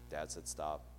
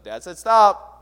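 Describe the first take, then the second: First: It is said quietly. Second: It is said loudly.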